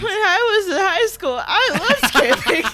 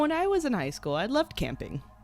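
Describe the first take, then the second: First: It is said in a crackly teenage-boy voice. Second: It is said in a smooth, normal voice.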